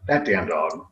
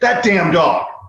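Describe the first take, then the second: First: It is said fondly, with affection. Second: It is said angrily, as a scolding.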